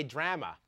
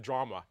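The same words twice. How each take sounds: First: "drama" with the flat a of "cat", tram-uh; Canadian pronunciation. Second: "drama" with a broad ah, drah-muh; American pronunciation. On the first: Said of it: "we say drama instead of drama". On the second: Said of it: "instead of drama". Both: Shown as a demonstration.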